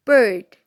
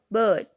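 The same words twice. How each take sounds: First: "bird" with the R clearly sounded; rhotic pronunciation. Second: "bird" with no R sound; non-rhotic pronunciation. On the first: Teacher showing the second example word in a rhotic accent, "bird" with a full R. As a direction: say "bird" with an r-coloured vowel before the d. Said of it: "in rhotic accent, it will sound bird". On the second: Teacher contrasting accents for learners, "bird" said with the R left silent. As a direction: say "bird" with a plain long vowel, dropping the R. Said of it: "in the non-rhotic accent, it will sound bird". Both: Shown as a demonstration.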